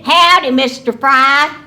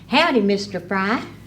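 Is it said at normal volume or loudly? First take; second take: loudly; normal. First: It is said loudly. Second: It is said at normal volume.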